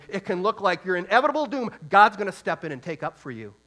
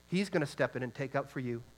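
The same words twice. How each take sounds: First: Louder and higher, driving the promise home; rising preaching shout. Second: Said in the usual way. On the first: Real, not acted. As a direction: swell into a full preaching cry on God's gonna step in. Preacher building to a climax.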